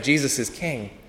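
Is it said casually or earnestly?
casually. It is said in a casual, offhand way.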